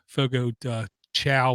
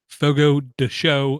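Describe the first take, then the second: First: The last word is said like chow. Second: The last word is said like show. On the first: The speaker calls it wrong. "where I used to call it" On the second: The speaker calls it right. "I was told is the correct way to pronounce it"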